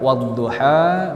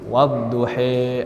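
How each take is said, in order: First: The final vowel is an open 'a'. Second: The final vowel is shifted to 'e'. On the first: "Ada yang dibaca a" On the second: "menjadi wadduhe, ada dibaca seperti itu"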